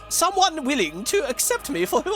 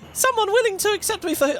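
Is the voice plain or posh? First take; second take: posh; plain. First: It is said in a posh put-on voice. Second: It is said in the speaker's ordinary voice. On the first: The speaker calls it right. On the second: The speaker calls it wrong.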